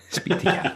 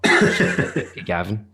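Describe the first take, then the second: First: Whispered prompt in an aside. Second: Said in the usual way. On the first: Real, not acted. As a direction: breathe it out as a hushed cue. Repeating a name, then whispering.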